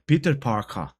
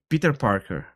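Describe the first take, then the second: First: It is said in a British accent. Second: It is said in an American accent.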